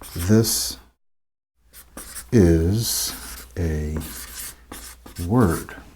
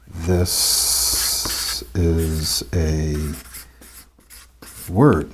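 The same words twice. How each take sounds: First: Each word is separated by a short pause. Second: The words run together smoothly without pauses.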